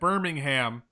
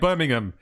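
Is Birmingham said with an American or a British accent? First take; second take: American; British. First: It is said in an American accent. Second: It is said in a British accent.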